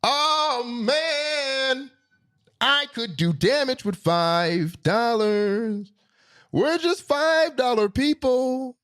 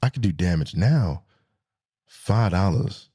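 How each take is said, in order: First: Very high, slow, drawn-out cry; exaggerated elation. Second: Low, subdued and matter-of-fact; deflated. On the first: Driver reliving what five dollars once bought, high drawn-out elation. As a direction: stretch every word high in mock rapture. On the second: Real, not acted. Driver facing five dollars of gas now, low deflated voice. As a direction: drop down low after the hype. Deflated return to present-day prices.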